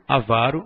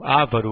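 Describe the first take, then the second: First: The stress is on the second syllable. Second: The stress is on the first syllable. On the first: The speaker calls it right. "o certo é" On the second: The speaker calls it wrong. "você tende a pronunciar"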